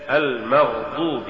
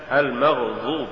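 First: Said in the usual way. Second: المغضوب with ض turned into ظ; faulty reading of المغضوب, ظ replacing ض; mispronounced ض. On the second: Shown as a demonstration. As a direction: say المغضوب with emphatic "dh", tongue between teeth. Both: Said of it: "تقرأ لحنا".

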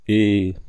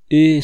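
First: "Et" held out loud, then cut off; storyteller halting mid-sentence on a level "Et"; breaking off. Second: Loud, high, urgent "Et?"; gripped listeners exclaiming "Et"; eager exclamation. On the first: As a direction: stop on "Et", left hanging in suspense. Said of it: "je m'arrêtais". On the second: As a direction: cry out, impatient to hear the rest. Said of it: "s'écrièrent tous mes auditeurs intéressés au dernier point". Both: A narrator's reading.

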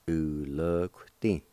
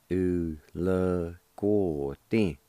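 First: Slow "u l g ti", the "g" with no vowel after it; shortened pronunciation. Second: Very slow "u l go ti", every syllable drawn out; full pronunciation. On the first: Teacher repeating the second way for learners, slowly, UO dropped. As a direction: draw out "u l g ti" but drop the UO after "g". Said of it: "you can leave out the U O". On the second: Teacher repeating the first way for learners, slowly drawn out. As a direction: stretch "u l go ti", keeping the full "go" sound. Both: Shown as a demonstration.

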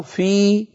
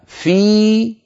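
First: فيه said as fīhi, the hā' with i and pitched higher; فيه ending in a light i, the easy way; fīhi with kasra. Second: فيه said slowly as fīhu, the hā' with u and pitched higher; فيه with a slow rounded u after the yā'; fīhu with damma. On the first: Teacher asking which is easier, second: فيه as fīhi. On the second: Teacher asking which is easier, first: فيه as fīhu. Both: Shown as a demonstration. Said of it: "أيهما أسهل؟".

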